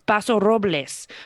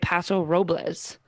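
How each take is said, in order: First: The name is pronounced with Spanish sounds. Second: The name is pronounced with English sounds. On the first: "in Spanish, it's Paso Robles" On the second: "So in English, I say Paso Robles"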